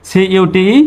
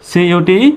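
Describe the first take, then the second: Both takes have the same delivery.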